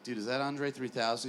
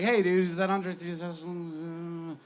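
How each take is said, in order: First: Said in the usual way. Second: Slow, mock-casual voice a little higher; Andre playing dumb. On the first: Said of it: "I'm like". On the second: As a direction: drawl it out like a star pretending not to know. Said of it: "He's like".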